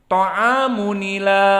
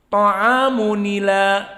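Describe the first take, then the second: The two takes are said the same way.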